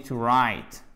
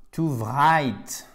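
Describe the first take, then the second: First: To write starting on a plain r, low and falling; silent W. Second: To write said as to vrite; wrong sounded W. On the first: Teacher giving the correct form, to write as to rite. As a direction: drop the W of write entirely. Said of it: "On dit to write". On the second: Teacher showing what one does not say, to write as to vrite. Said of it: "on ne dit pas". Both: Shown as a demonstration.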